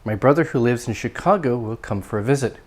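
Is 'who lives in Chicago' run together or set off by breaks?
run together. The sentence flows with no breaks around the clause. It identifies which brother is meant. "There aren't any real breaks in my intonation"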